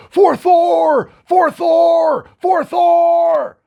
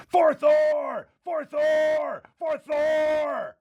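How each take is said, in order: First: Full-throated barbarian war cry, high and loud; screaming. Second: High, drawn-out yell at reduced volume, fading; yelling back. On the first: Barbarian rallying at the forge for his god, screaming. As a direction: scream it out with long held notes. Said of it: "Korgoth is gonna start screaming". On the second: Blacksmith caught up in the moment, yelling back to Korgoth. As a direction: answer the war cry like a distant echo. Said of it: "he starts yelling back at you". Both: Acted.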